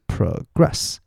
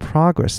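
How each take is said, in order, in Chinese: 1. 重音在第二个音节。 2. 重音在第一个音节。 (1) "它作为动词的时候，它的重音会在后面的音节，所以是progress" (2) "如果是名词，我说progress"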